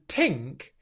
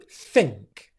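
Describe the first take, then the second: First: It begins with a t sound. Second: It begins with a th sound. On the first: The speaker calls it wrong. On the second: The speaker calls it right.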